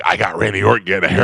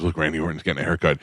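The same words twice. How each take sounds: First: Quick, mildly hyped-up brag; rushed mock excitement, a little louder; mock gloating. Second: Said in the usual way. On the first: Shown as a demonstration. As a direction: imitate an eager fan showing off a catch. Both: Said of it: "Not like".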